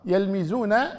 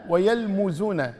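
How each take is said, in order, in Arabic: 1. الحركة بعد الميم كسرة. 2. الحركة بعد الميم ضمة. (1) "بكسر الميم" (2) "وضمها"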